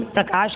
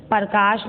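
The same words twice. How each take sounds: First: Said in the usual way. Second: प्रकाश said as "par-kaash"; mispronounced प्रकाश. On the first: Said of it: "प्रकाश कहते हैं ना". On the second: Shown as a demonstration. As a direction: split the opening cluster of प्रकाश into "par". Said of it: "प्रकाश नहीं". (प्रकाश को गलत "परकाश" बोलना)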